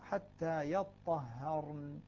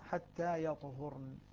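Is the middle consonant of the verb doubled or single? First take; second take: doubled; single. First: The t is doubled and the h has a. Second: The t is single and the h has u. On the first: "بتشديد الطاء وفتح الهاء" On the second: "نافع وابن عامر وحفص يقرؤون"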